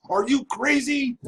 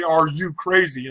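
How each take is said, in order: First: High mock judge asking are you crazy; imagined judge. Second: Said in the usual way. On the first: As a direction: play the judge, pitched up, half-mocking. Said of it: "I wanted him to actually say". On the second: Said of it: "getting ready to say".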